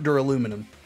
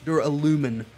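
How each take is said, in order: First: The word ends in '-luminum'. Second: The word ends in '-lumin'. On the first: The speaker calls it wrong. "I've been mispronouncing that" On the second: The speaker calls it right. "It's Duralumin"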